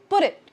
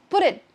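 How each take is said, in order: The two takes are said the same way.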